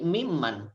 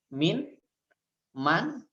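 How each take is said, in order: First: The n merges into a doubled m. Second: The n stays separate before man. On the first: "menjadi mimman" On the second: "Asal katanya min, man"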